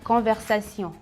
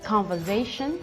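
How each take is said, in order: First: It is pronounced the French way. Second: It is pronounced the English way. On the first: "en français" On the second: "en anglais"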